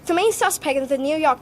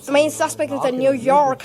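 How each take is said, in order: First: It is read in a British accent. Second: It is read in an American accent. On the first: "British accent" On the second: "American accent"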